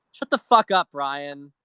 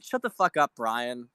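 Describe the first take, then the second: First: Angry shout. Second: Irritated telling-off, medium volume; annoyed. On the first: Streamer yells at a TV host he despises, furious shout. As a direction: blow up at him, full volume. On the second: Streamer scolds a TV host he despises, irritated. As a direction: tell him off, fed up but not yet yelling. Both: Real, not acted.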